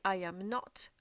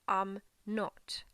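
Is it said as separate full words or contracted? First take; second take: full; contracted. First: Three full words, with weight on 'not'. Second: Contracted to two quick, unemphatic syllables. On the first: A firm denial: I am not, so stop bringing it up. "si on dit I am not, on insiste sur le not" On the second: A simple, neutral statement of not being something. "On va enlever le A, on va mettre un apostrophe"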